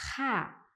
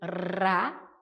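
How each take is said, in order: First: The r is a rough sound from the throat. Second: The r is a quick vibrating tongue tap. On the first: "É como se ele estivesse saindo da nossa garganta" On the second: "Faz vibrar, tem essa vibração"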